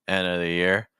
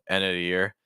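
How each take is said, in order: Both takes have the same delivery.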